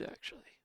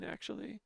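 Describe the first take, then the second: First: Breathy whisper of actually; whispered aside. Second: Said in the usual way. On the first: Acted. Whispered afterthought.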